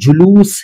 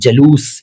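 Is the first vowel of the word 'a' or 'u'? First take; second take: u; a. First: The first syllable has a short 'u' vowel. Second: The first syllable has a short 'a' vowel. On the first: This is the proper form of the word. The speaker calls it right. "लेकिन ये जुलूस है" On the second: This is how people commonly say it. The speaker calls it wrong. "इसको जलूस कह देते हैं लोग"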